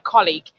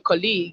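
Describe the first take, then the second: First: The first vowel is a deliberate careful one. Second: The first vowel is the casual everyday one. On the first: The speaker leaves a lasting impression. The speaker calls it right. "it just has a different feel" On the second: The speaker sounds like most people. The speaker calls it wrong. "a lot of people will say colleague"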